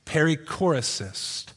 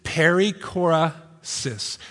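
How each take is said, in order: First: Said in the usual way. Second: Slow, syllable by syllable Perichorasis; said really slowly. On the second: Shown as a demonstration. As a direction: stretch out "Perichorasis" slowly, each syllable clear. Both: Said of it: "I'll say it really slowly for you".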